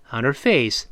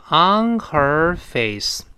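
First: On her face run as "on-er face"; linked, h dropped. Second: On her face slow, with full h in her; word-by-word reading. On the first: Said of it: "打穿了清辅音h". (on her face连读，her不发h) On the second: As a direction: say on, her, face separately, h sounded. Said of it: "读单词的时候都读成". (on her face逐词慢读，h发全) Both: Shown as a demonstration.

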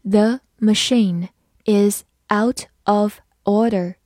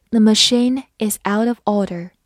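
First: "The machine is out of order" slowly, one word at a time; slow reading. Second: Said in the usual way. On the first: Shown as a demonstration. English teacher models "The machine is out of order", slow reading. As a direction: leave gaps between the words of "The machine is out of order". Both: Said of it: "慢慢来读".

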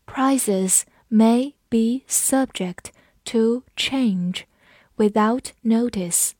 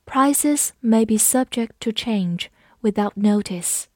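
First: Slow, words spaced apart; slow model sentence; slow read. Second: Said in the usual way. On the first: Shown as a demonstration. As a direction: read it out slowly for learners. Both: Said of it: "我们慢读一遍".

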